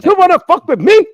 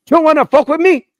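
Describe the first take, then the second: First: Even higher, faster, louder mock Hispanic yell; Hispanic accent. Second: High, loud mock Hispanic drill instructor; Hispanic accent. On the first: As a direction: push the Hispanic accent harder and quicker. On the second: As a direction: bark it in a thick Hispanic accent. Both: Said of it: "his accent".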